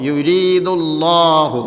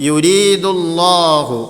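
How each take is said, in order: The two takes are said the same way.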